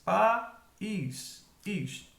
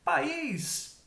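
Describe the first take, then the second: First: "país" as pa... ís, with a gap; teacher spacing out "país", pausing between syllables; split into syllables. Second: Said in the usual way. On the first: Shown as a demonstration. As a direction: break "país" into two separate syllables. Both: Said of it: "em sílabas separadas".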